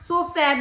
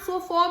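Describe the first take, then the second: First: The final vowel sounds like the vowel in cat. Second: The final vowel sounds like the vowel in walk. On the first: "कैट की तरह सोफा भी तो कह सकते थे" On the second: "वॉक में ए की आवाज ओ होती है"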